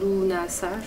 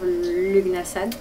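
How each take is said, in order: First: The g and the final d are dropped. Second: Every letter is sounded, including g and d. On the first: The speaker calls it right. "il faudrait le prononcer Lunasa" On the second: The speaker calls it wrong. "je le prononce mal, hein"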